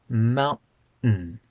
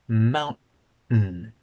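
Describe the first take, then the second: No difference in how they are said.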